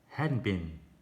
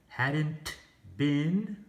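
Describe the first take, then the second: First: The T sound in hadn't is dropped. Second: The T sound in hadn't is clearly pronounced. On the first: "it just sounds like" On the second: "instead of saying"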